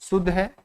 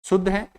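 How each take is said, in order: Both takes have the same delivery.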